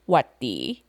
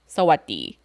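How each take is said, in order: First: The greeting is cut down to two syllables. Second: The greeting is said with all its syllables. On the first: A more casual greeting, like hi. "to shorten it even further, is to just say watti" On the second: A standard greeting, like hello. "When Thai people actually say it, though, it sounds more like sawadee"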